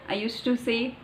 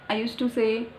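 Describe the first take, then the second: The two takes are said the same way.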